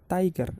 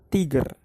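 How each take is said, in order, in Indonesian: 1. Diucapkan dengan cara bahasa Inggris. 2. Diucapkan huruf demi huruf sesuai ejaannya. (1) "Cara bacanya adalah tiger" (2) "bukan tiger"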